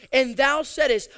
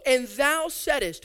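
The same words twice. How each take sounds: First: Thou punched, louder; stress on thou. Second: Said in the usual way. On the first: Acted. Preacher stressing that God made the promise, thou stressed. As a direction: hit thou to point at God. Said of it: "repeated after who said? God". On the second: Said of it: "repeated for emphasis".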